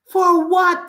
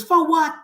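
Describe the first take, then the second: First: Higher, louder demand; louder repeat. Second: Said in the usual way. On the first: Real, not acted. Ranting to viewers against Patois, louder repeat. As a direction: push the question back at them harder. Rhetorical question repeated, heated.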